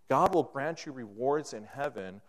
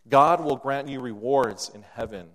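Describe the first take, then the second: First: Said in the usual way. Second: GOD said loud and strong, falling at the end; loud preacher's emphasis on "God"; emphatic proclamation. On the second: Shown as a demonstration.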